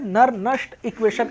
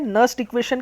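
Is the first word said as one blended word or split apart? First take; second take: split; blended. First: The name is split into two separate parts. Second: The name is said as one blended word. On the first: The speaker calls it wrong. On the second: The speaker calls it right.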